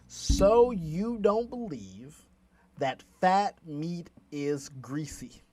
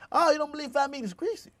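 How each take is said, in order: First: It is said slowly. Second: It is said fast.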